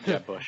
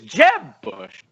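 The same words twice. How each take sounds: First: Jeb is said plainly with no exclaiming lift. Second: Jeb is said loudly with an exclaiming lift. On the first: The name is said as an ordinary name. The speaker calls it wrong. "not Jeb Bush" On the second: The name carries its built-in exclamation. The speaker calls it right. "exclamation point"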